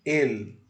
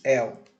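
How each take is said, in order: First: "el" with a clear final L; Spanish pronunciation. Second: "el" said as "éu", L turned to u; wrong Brazilian pronunciation. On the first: Teacher reads the green word, clear Spanish L. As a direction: say "el" with the tongue up on the L. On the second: Teacher shows what not to say, Brazilian vowel-like L. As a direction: let the L of "el" slide into a u. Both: Shown as a demonstration. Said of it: "Não se diz el".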